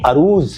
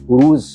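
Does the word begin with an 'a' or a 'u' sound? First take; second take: a; u. First: The word begins with an 'a' vowel sound. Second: The word begins with a 'u' vowel sound. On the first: The speaker calls it right. "अरूज़ है" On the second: The speaker calls it wrong. "ये लफ्ज़ जो है ये उरूज़ नहीं है"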